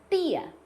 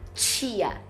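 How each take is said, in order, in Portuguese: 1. Fala-se com sotaque nordestino. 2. Fala-se com sotaque gaúcho. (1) "muita gente vai falar tia ... de João Pessoa" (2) "Eu falo tia"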